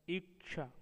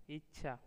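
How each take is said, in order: First: इच्छा said as "iksha"; overcorrected. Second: Said in the usual way. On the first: Shown as a demonstration. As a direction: put "ksh" in इच्छा for the chh. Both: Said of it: "वे उसे संस्कृताइज्ड".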